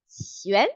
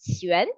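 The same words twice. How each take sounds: First: The word is said slowly. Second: The word is said quickly.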